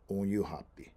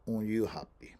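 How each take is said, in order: First: The word ends with a full pi syllable. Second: The same.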